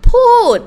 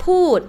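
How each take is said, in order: First: พูด repeated much higher and louder; emphatic พูด. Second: พูด said once, plainly, to model it; name the word พูด calmly. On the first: Teacher repeating the Thai word พูด for students, emphatic. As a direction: punch out พูด so the class hears it. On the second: Teacher introducing the Thai word พูด, plain. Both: Shown as a demonstration. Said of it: "What does it mean คะ".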